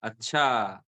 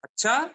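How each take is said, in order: First: "acha" drawn out low with a falling tune; falling intonation demo. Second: "Acha" shooting up high and loud; rising intonation demo. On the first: Teacher showing a second meaning of acha, low falling "acha". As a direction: let "acha" sink slowly at the end. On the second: Teacher showing another meaning of acha, high rising "Acha". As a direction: question "Acha" with a sharp upward swoop. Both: Shown as a demonstration. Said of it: "it means something else".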